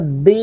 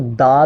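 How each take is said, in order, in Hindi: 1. इस शब्द का अंत लंबे 'ee' स्वर से होता है। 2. इस शब्द का अंत छोटे 'uh' स्वर से होता है। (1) "दी तब पढ़ा जाता है जब दी से अगली साउंड वाउल साउंड हो" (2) "इसको दा भी पढ़ा जाता है"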